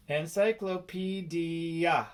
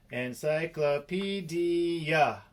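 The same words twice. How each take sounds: First: Said in the usual way. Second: "Encyclopedia" said slowly, each syllable spelled out. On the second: Shown as a demonstration. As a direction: stretch out "Encyclopedia" one syllable at a time.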